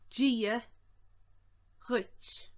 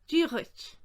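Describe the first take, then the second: First: It is said slowly. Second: It is said at normal speed.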